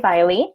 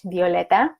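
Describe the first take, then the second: First: The name is said with an English accent. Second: The name is said with a Spanish accent. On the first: "I'm gonna try to say it in English" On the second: "I want to say your this name in Spanish"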